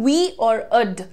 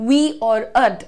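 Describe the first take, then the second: No difference in how they are said.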